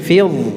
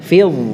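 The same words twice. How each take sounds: The two takes are said the same way.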